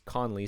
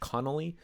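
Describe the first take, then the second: First: The name is said as Conley. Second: The name is said as Connolly. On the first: The speaker calls it right. "it's Conley" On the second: The speaker calls it wrong. "Sometimes it's pronounced Connolly"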